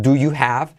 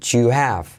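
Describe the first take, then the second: First: "do you have" with distinct D, Y and H; separate words. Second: "you have" as J-sounding "ju-av", H dropped; fuse it into "you have" with a J start; contracted. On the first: Teacher showing what to avoid, uncontracted do you have. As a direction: pronounce each word of "do you have" fully. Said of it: "No es do you have". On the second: Teacher showing native linking, contracted you have. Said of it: "se convierte en una letra J". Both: Shown as a demonstration.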